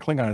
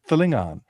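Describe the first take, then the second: First: It begins with a plain k sound. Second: It begins with a throaty non-k sound. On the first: The speaker calls it wrong. "Klingon isn't actually Klingon" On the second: The speaker calls it right. "it's Thlingon"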